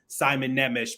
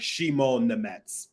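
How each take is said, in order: First: The first name begins with an 's' sound. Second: The first name begins with a 'sh' sound. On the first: This is how the name was announced publicly. The speaker calls it wrong. "I've mispronounced his name too" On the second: This is how he says his own name. The speaker calls it right. "he said it's Shimon Nemetz"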